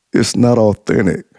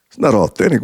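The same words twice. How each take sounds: First: Said in the usual way. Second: "It's not authentic?" rising as a disbelieving question; incredulous echo. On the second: Retold or imitated. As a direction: throw her words back in disbelief. He echoes her in disbelief.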